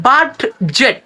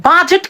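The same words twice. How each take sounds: First: বাডজেট split as "bad... jet"; slow, sounded d in বাডজেট; spelling-based mispronunciation. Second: বাজেট as "BA-jet", no d; correct pronunciation. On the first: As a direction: separate both syllables of বাডজেট. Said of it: "উচ্চারণটা না করে". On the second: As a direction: silent d in বাজেট. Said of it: "উচ্চারণ আসলে বাজেট হয়". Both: Shown as a demonstration.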